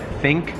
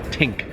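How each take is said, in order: First: The word starts with a th sound. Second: The word starts with a t sound. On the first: "for think" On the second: "some people say think"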